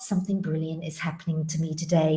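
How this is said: It sounds hesitant and unsure. The speaker is not sure it will happen. The speaker calls it wrong. "not something brilliant is happening to me today, maybe it might"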